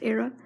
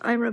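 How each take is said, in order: First: The name begins with an 'air' sound. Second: The name begins with an 'eye' sound. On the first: This is how screen readers say the name. The speaker calls it wrong. "Like screen readers and stuff, it's Aira" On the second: This is how the company itself says the name. The speaker calls it right. "It's pronounced Ira"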